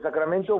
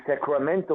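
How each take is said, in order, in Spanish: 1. Se dice con pronunciación española. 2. Se dice con pronunciación del inglés americano.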